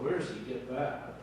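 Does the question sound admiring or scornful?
scornful. It sounds doubtful and scornful. The listeners doubt and look down on him. "Same words, very different inflection"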